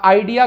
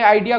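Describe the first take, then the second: First: Said in the usual way. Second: Imitated British pronunciation of "आइडिया"; British accent. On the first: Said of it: "India में". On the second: Shown as a demonstration. Teacher showing students how Britain says "आइडिया", imitated British accent. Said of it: "British accent में आइडिया को".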